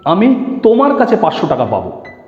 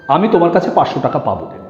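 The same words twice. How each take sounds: First: The stress is on তোমার কাছে. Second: No word is given special stress.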